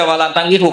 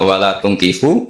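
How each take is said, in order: First: The verb's first vowel is an 'a' sound. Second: The verb's first vowel is an 'u' sound. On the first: Believing men, do not marry idolatrous men. The speaker calls it wrong. "Tapi sekali dibaca walantangihu" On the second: Do not marry your daughters to idolatrous men. The speaker calls it right. "harus dibaca bidomit"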